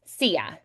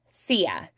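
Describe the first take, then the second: The two takes are said the same way.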